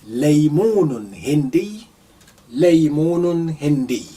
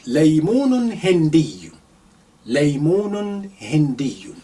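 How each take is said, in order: The two takes are said the same way.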